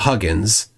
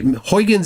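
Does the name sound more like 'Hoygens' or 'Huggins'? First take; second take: Huggins; Hoygens. First: The name is said with a short 'hug' vowel. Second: The name is said with the common anglicized vowels. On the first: The speaker calls it right. "It's closer to Huggins" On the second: The speaker calls it wrong. "Huygens is a mispronunciation"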